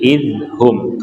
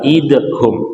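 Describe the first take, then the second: First: The middle consonant is a soft th-like sound. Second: The middle consonant is a hard d-like sound. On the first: The speaker calls it right. "tapi izhum karena hurufnya adalah huruf zal" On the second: The speaker calls it wrong. "bukan idhum"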